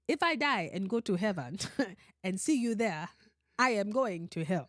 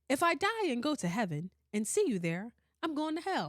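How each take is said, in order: First: It is said in a put-on African accent. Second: It is said in the speaker's usual accent.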